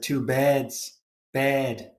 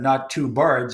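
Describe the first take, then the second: First: Liverpool vowel, "birds" said as "beds"; demonstrating a Liverpool "beds" for "birds"; strong Liverpool accent. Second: Said in the usual way. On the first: Shown as a demonstration. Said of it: "a very strong Liverpool accent". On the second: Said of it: "That's a very strong Liverpool accent".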